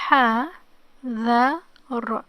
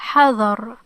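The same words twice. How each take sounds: First: Very slow, letter by letter, louder; sounded out slowly. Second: Said in the usual way. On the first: Shown as a demonstration. Teacher helping learners try to read it, sounded out slowly. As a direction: break the word into its separate sounds. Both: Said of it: "let's try to read it".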